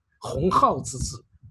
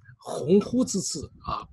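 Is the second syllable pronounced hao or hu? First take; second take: hao; hu. First: The second syllable is pronounced hao. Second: The second syllable is pronounced hu. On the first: The speaker calls it wrong. "把它读成了“鸿浩之志”" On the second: The speaker calls it right. "他把“鸿鹄之志”"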